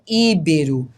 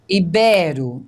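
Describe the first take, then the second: First: The stress is on the first syllable. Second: The stress is on the second syllable. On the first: The speaker calls it wrong. "não é íbero" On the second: The speaker calls it right. "a gente tem uma paroxítona"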